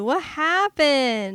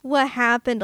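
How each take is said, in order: First: Slow, higher wail; mock dismay. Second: Said in the usual way. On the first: Fan mourning Elizabeth Shue's bad acting, slow wail. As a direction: drag it out in disbelief. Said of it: "Elizabeth Shue?".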